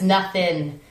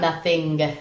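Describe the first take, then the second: First: The word ends without a final G sound. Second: The word ends with a clear final G sound. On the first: This is how the title is spelled. The speaker calls it right. "There's no G on the on the nothing" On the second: This is the usual spelling people search for. The speaker calls it wrong. "people usually put a G on nothing"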